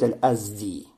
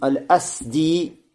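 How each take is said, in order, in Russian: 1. Средний согласный — звонкий звук z. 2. Средний согласный — глухой звук s. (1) "Можно также говорить аль-азди" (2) "ставится сукуна, син"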